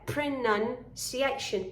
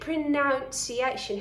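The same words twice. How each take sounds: First: The second syllable has a short ah vowel. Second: The second syllable has a vowel other than ah. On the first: The speaker calls it right. "It's a short ah sound there" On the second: The speaker calls it wrong. "many students say pronunciation"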